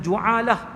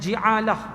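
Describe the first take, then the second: First: The first vowel is a u sound. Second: The first vowel is an i sound. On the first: "baris depan" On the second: "baris bawah"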